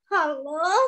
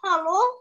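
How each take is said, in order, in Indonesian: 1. Diucapkan dengan cara sedih. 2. Diucapkan dengan cara cemas. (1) "Kalau sekarang ekspresinya sedih" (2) "Kalau sekarang ekspresinya cemas"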